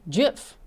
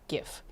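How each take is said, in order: First: It begins with a J sound. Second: It begins with a hard G sound. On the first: "they want it pronounced with a J" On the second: "I say GIF"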